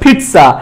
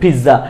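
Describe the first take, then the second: First: The middle has a clear 't' sound. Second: The middle has no clear 't' sound. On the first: The speaker calls it right. "সঠিকটা হবে পিৎজা" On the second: The speaker calls it wrong. "ভুলটা হচ্ছে পিৎজা"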